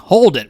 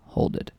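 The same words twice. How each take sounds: First: It is shouted loudly and forcefully. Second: It is said softly and gently.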